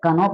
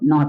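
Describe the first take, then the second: First: The word begins with a k sound. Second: The word begins with an n sound. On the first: The speaker calls it wrong. "इसको बहुत लोग कनो पढ़ेंगे, लेकिन कनो नहीं होता है" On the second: The speaker calls it right. "के साइलेंट रहता है, इसलिए इसको नो पढ़ेंगे"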